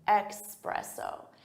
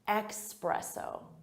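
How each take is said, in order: First: The first syllable has an X sound. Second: The first syllable has an X sound.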